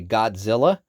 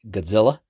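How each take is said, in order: First: The name is said in a sassy, playful way. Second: The name is said in a plain, everyday way. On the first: This is used when being playful. "when I'm being a little extra sassy" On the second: This is the usual way of saying it. "that's how I've always been saying it"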